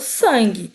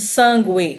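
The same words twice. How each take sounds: First: No U sound is pronounced after the G. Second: A U sound is pronounced after the G. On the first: The speaker calls it right. "Eu falo sangue" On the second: The speaker calls it wrong. "Eu não tô falando esse U da palavra sangue. Eu não tô falando sangue"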